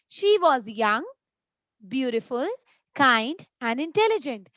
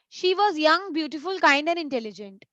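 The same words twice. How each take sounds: First: Each list item is separated by a pause. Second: The list runs together without pauses.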